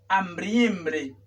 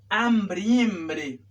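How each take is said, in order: The two takes are said the same way.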